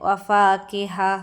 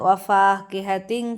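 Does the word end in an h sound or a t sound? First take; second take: h sound; t sound. First: The word stops and ends with an h sound. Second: The word is joined on with a t sound. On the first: The reading stops on this word. "ഇനി വഖഫ് ചെയ്യുകയാണെങ്കിൽ എങ്ങനെയാണ്?" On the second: The reading continues into the next word. "നമ്മൾ ചേർത്തി ഓതുമ്പോൾ താ ആയിട്ടാണ്"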